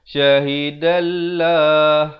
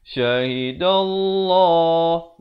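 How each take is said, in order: First: The 'l' in Allah is light and thin. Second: The 'l' in Allah is heavy and thick. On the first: The speaker calls it wrong. "Jangan pula kita baca syahidallah, itu salah" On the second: The speaker calls it right. "Kena baca syahidallah, dibacakan dengan tebal dua harakat"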